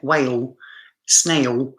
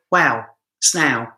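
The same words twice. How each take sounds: First: "whale", "snail" as WAY-ul, SNAY-ul; careful standard "whale", "snail" with full L; L pronounced. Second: "whale", "snail" as wow, snaow; L dropped. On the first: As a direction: sound the final L clearly in "whale" and "snail". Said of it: "I don't pronounce the L". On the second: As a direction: let the L in "snail" melt into a vowel. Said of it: "I go, wow, snail". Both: Shown as a demonstration.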